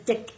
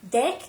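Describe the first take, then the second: First: The vowel is raised, sounding like 'dick'. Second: The vowel is open, sounding like 'deck'. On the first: The speaker calls it wrong. "I still say it as dick" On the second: The speaker calls it right. "D E C K, guys, not dick, deck"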